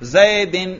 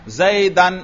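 First: The word ends in -in. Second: The word ends in -an. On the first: The word is in the genitive case. "میں نے کیا پڑھا؟ جر" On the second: The word is in the accusative case. "میں نے کیا پڑھا؟ نصب"

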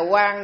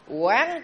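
First: The word is said with a level tone. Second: The word is said with a rising tone. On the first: The word means bright. The speaker calls it wrong. "chứ không phải là quan nữa" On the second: The word means to observe or examine. The speaker calls it right. "Quán chứ không phải là quan nữa"

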